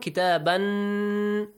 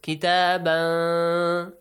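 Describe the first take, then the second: First: The final n sound is pronounced clearly. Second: The final n sound is hidden and nasalized. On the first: "Pronounce nun kitaban" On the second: "but now hide it"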